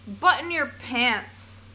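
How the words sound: It is said in an American accent.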